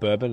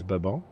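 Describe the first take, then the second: First: Said with a plain American English pronunciation. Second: Said with a French-like Central American pronunciation. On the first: The speaker calls it wrong. "was I saying it wrong? It's not bourbon" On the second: The speaker calls it right. "it's bourbon"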